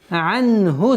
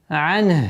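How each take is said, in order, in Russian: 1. Перед следующим словом конечная гласная сохраняется. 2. При остановке конечная гласная отбрасывается. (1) "А если при слитном чтении не останавливаемся" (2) "Если применяем тематическую остановку, то огласовка дамма аннулируется. И получается ан"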